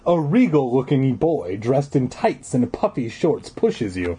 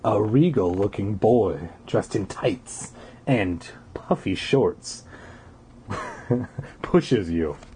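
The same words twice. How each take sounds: First: The sentence is read at a faster pace. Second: The sentence is read at a slower pace.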